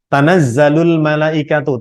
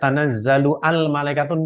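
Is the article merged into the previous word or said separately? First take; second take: merged; separate. First: The article merges into the previous word. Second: The article is said separately with its own vowel. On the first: The speaker calls it right. "ini sudah sama" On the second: The speaker calls it wrong. "tidak ... enggak karena hamzahnya wasol"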